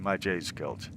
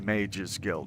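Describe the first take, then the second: First: Mage is split into two syllables, my-jay. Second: Mage is one syllable, rhyming with page. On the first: "sometimes I intentionally mispronounce something" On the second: "I don't say Mage's Guild"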